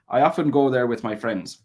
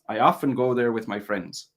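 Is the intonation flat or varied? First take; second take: varied; varied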